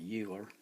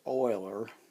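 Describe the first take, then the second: First: The name begins with a 'you' sound. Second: The name begins with an 'oy' sound. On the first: "I'm just going to call it Euler" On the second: "the letters E U pronounced Oi"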